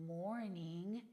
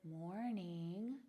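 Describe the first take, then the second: No difference in how they are said.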